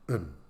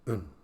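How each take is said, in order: First: The vowel is reduced to a short, weak sound. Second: The same.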